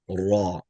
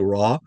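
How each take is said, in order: First: It begins with a heavy, rounded Arabic r sound. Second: It begins with a light English-style r sound. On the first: The speaker calls it right. "but rather raw" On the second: The speaker calls it wrong. "we're not pronouncing it as an R. It's not raw"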